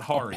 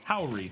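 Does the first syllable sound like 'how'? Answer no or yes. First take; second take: no; yes. First: The first syllable does not sound like 'how'. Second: The first syllable sounds like 'how'. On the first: The speaker calls it wrong. "not Hari" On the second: The speaker calls it right. "Emphasized syllable, pronounced like how"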